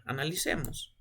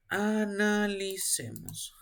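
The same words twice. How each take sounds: First: Said in the usual way. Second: "Analicemos" stretched syllable by syllable; slow, lingering "Analicemos"; drawn-out prompt. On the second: Real, not acted. Teacher nudging a student to work it out, drawn out slowly.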